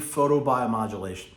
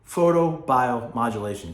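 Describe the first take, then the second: First: The word is said at normal speed. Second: The word is said slowly.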